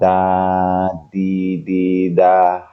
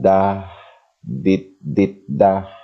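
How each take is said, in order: First: Final sounds are dropped and syllables run together. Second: Each syllable is complete and separated by pauses. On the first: The listener hears one single letter. The speaker calls it right. "membuang huruf akhir ... dilafazkan sekali nafas dan tidak boleh terputus" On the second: The listener hears separate letters. The speaker calls it wrong. "salah dalam hal melafazkan ... kesannya akan terputus dan berspasi"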